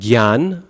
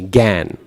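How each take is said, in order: First: It begins with g then y, with no nasal. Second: It begins with a plain g, no y or nasal. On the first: This is how Hindi speakers say it. "Hindi speakers do gyanam, gyan" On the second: This is how Bengali speakers say it. "It's just the g, gan"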